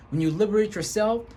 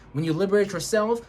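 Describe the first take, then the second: No difference in how they are said.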